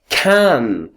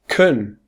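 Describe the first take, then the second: First: The word has a full, strong vowel. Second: The word has a reduced, weak vowel. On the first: "So we have can" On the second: "and the weak form is kun"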